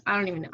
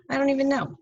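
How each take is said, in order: First: Said in the usual way. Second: Higher and a bit louder, throwing up her hands; exasperated disbelief. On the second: Real, not acted. Teacher telling her class she has lost track, exasperated. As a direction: pitch it up in baffled disbelief.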